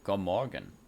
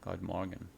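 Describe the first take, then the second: First: The d at the end of 'god' is silent. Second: The d at the end of 'god' is pronounced.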